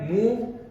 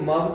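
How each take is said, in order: First: The vowel is a long oo sound. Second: The vowel is a short uh sound. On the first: The speaker calls it right. "ऊ की sound आ गई" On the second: The speaker calls it wrong. "अब इसको मव तो नहीं बोलेंगे"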